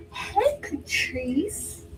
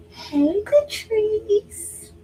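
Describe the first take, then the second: First: High, stretched-out slow hello; happy phone greeting. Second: High bright mock-excited hello; happy phone greeting. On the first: Retold or imitated. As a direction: drag out a delighted hello. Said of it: "That's Marilyn". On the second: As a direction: greet like you're thrilled they called. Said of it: "answers the phone like that".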